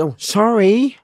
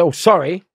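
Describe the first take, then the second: First: A hint of a meek fool, much higher; playing dumb. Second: Said in the usual way. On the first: Acting dumb when inmates kick his heels, meek. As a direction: act the harmless peanut. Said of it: "So I'm playing Sammy". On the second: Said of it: "so I said".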